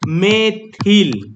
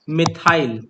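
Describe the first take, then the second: First: The word ends with a short 'il' sound. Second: The word ends with a long 'ile' sound. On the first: The speaker calls it wrong. "इसको मेथिल नहीं बोलते हैं" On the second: The speaker calls it right. "मिथाइल बोलते हैं"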